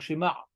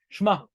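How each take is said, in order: First: A full vowel separates the sh and m. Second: The sh and m run together without a vowel. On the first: The speaker calls it right. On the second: The speaker calls it wrong. "il dit shma"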